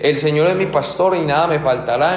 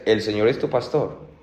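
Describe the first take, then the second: First: "es" lightly lifted, line rising at the end; reciting the psalm. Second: Weight on "es", dropping low and quiet at the end; pointed question. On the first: Preacher quoting the psalm to the church, gently rising. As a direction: recite "El Señor es mi pastor" as a flowing promise. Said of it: "El Salmo veintitrés dice". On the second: Preacher challenging the congregation, low pointed question. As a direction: ask "¿el Señor es tu pastor?" leaning on "es". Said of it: "pero la pregunta es". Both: Shown as a demonstration.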